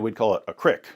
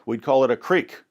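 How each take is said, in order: First: Creek is said West Virginia style, short i. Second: Creek is said with a long ee vowel.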